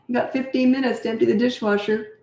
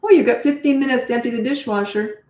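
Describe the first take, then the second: First: Even, matter-of-fact, no disgust; lightly raised "fifteen", steady and friendly; neutral and calm. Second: A touch of frustration and disdain; disgusted tone. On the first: Shown as a demonstration. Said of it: "Next time, do it like this". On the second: Retold or imitated. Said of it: "You did it again".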